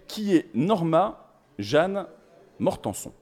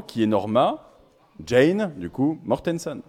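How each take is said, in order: First: Norma Jeanne Mortenson said the French way, slow and drawn out; French-accented name, deliberately slow; French pronunciation. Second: English way of saying the name; English pronunciation. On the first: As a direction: read "Norma Jeanne" as French names, "Mortenson" with a nasal French ending. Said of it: "prononcé avec mon accent français légendaire". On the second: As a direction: say "Jane" the English way, like "Djein", and "Mortenson" with an English "-son". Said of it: "normalement, on le dit autrement". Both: Shown as a demonstration.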